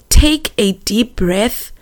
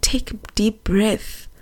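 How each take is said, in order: First: Slow, voiced, gently measured; tender, unhurried retelling of gran; deliberate calming. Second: Whispered, soothing retelling of gran; calm them in a near whisper; very soft and breath-filled; hushed comfort. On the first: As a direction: spell out the comfort slowly. Repeats gran's calming words more deliberately. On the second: Retold or imitated. Gran calming her, retold near tears.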